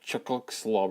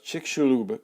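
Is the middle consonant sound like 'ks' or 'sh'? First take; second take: ks; sh. First: The middle consonant sounds like 'ks'. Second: The middle consonant sounds like 'sh'. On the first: The speaker calls it wrong. "it looks like Chicxulub or something" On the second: The speaker calls it right. "That X is kind of like an S H sound"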